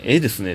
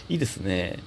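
First: ええですね said in Kansai style with a long ええ; dialect slip. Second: いいですね corrected to standard いい, softer; standard correction. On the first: Host reading a listener's question, casual Kansai ええですね. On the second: Host correcting himself to standard いいですね, quietly. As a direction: restate it properly as いいですね. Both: Shown as a demonstration.

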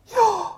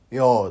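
First: High, sucked-in よー on an in-breath; inhaled speech. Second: Said in the usual way. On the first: Shown as a demonstration. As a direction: say よー while breathing in, like a Finn. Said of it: "息を吸いながら". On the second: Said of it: "息を吐きながら言いますけど".

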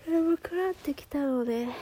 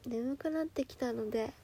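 First: Higher and louder, stressing 眠くなってきた; emphatic repeat. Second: Sleepy. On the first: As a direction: punch 眠 hard as you repeat it. (強調して大きく言い直す) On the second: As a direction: let the words sag with sleep. (眠そうに小さく) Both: Real, not acted.

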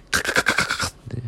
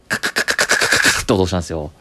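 First: Soft voiceless clicking "カカカカ" for a scratching pen; imitated scratch of a capless pen; pen scratching noise. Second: Said in the usual way. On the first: Shown as a demonstration. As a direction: tap out the pen noise with breath only.

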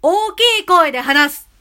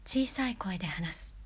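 First: Much louder, higher call; loud demo. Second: Soft unvoiced whisper; whispered demo. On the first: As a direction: project it out loud. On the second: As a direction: breathe it out in a whisper. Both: Shown as a demonstration. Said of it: "強弱".

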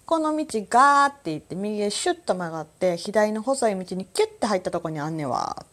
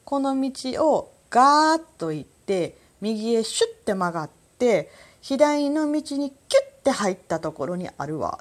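First: ガー, シュッ, キュッ each punched in a lively Kansai-style direction; the onomatopoeia ガー is said big and long, シュッ short and sharp, キュッ clipped; onomatopoeia stressed. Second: ガーッと stretched long and higher, シュッて quick, キュッて clipped short; onomatopoeia stressed again. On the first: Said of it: "みたいな". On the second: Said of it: "それで言うと". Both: Shown as a demonstration.

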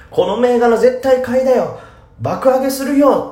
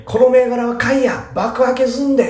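First: Much higher and louder, eager standard-Japanese tip; standard-Japanese hype. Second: Put-on much higher, louder cocky Kansai accent; boss-like Osaka tip; Kansai hype. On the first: Retold or imitated. Podcaster mimics a standard-speech poster, high and loud. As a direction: pitch the stock brightly without dialect. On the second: Podcaster imitates a Kansai poster, cocky and loud. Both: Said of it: "っていうよりも本当に".

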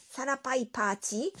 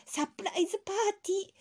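First: サラパイパーティー said as a puzzled question; mispronounced word. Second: サプライズパーティー said fast and clear; correct pronunciation. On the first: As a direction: mishear it as サラパイパーティー. (「サラパイパーティー」と聞き間違えて) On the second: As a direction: spell out サプライズパーティー quickly. (「サプライズパーティー」を正しく) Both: Shown as a demonstration. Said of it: "サラパイパーティーじゃないって".

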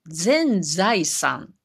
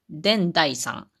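First: Said in the usual way. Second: 伝財産 spoken slowly, first z turned to d, den-zaisan; drawn-out 伝財産 with a clear d at the start; Wakayama pronunciation. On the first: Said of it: "もっと長く". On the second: Shown as a demonstration. Speaker contrasting standard with Wakayama speech, slow 伝財産 with d. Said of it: "全財産やったら".

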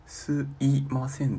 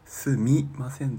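First: すいません said slowly as "suimasen", dwelling on the sloppy い; sarcastic slow すいません; mocked sloppy form. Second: すみません with a clear "mi", said as the proper form; scolding すみません; correct form. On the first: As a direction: drag out すいません to mock the い. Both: Shown as a demonstration. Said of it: "すみませんだろ".

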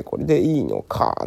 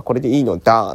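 First: これでいいのか with the ending か rising like a doubtful question. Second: これでいいのだ with the ending のだ falling flat, settled and sure; firm statement. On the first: Host contrasting two nuances of a slogan, doubtful question. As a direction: ask これでいいのか as a puzzled, open question. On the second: Host contrasting two nuances of a slogan, cheerful firm assertion. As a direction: declare これでいいのだ like a carefree Bakabon line. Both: Shown as a demonstration. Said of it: "ニュアンスの違いですね".

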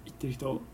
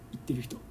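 No difference in how they are said.

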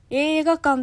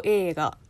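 First: 映画館 said flat, with no drop in pitch; flat accent demo. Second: 映画 said alone, its pitch accent shown clearly; accent demo. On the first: Host showing the flattened accent of 映画館, even. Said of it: "ちょっと平板になる". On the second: Host contrasting word accents for a viewer, careful. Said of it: "単体ですと". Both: Shown as a demonstration.

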